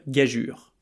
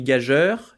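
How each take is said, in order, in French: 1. Le mot finit par un son 'ure'. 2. Le mot finit par un son 'eur'. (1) "C'est le même suffixe que dans blessure, injure, morsure, et on devrait donc dire gageure" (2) "c'est d'ailleurs souvent comme ça qu'il est prononcé, mais c'est un piège"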